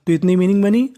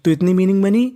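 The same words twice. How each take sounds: The two takes are said the same way.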